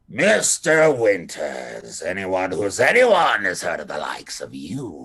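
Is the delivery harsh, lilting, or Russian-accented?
harsh. It is said in a harsh accent.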